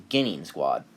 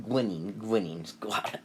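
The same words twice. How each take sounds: First: Said in the usual way. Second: "Gwinin" with a stray w after the G; mispronounced Genin. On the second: Real, not acted. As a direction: trip over Genin, saying "Gwinin". Stumbles on word, then corrects it.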